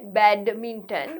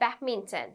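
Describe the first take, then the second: First: The word is said slowly and drawn out. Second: The word is said quickly and compactly. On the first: The speaker calls it wrong. "we don't say badminton" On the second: The speaker calls it right. "we say badminton. Badminton. It's a very quick one"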